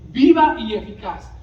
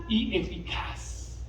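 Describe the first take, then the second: First: Louder, driving stress on viva; emphatic. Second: Breathed almost unvoiced, slow; hushed. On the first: Acted. Preacher to congregation, loudly proclaiming the phrase. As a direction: proclaim it with force. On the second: Preacher to congregation, softly breathing the words. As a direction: let the words sink to a hush. Preacher drops the phrase low.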